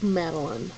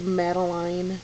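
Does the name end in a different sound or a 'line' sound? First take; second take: different; line. First: The last syllable does not sound like 'line'. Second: The last syllable sounds like the word 'line'. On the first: The speaker calls it right. "but I like Madeline" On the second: The speaker calls it wrong. "I don't like Madeline"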